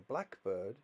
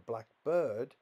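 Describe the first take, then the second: First: The stress falls on black. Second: The stress falls on bird. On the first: It is a particular type of bird. "it means I saw a type of bird"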